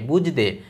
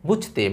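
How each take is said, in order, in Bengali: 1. ঘোষ 'j'-এর পরে 'de' আসে। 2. অঘোষ 'ch'-এর পরে 'te' আসে। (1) "যারা ভারতে আছেন তারা বলেন বুঝদে" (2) "আমরা যারা বাংলাদেশী আছি আমরা বলি বুঝতে মানে চ"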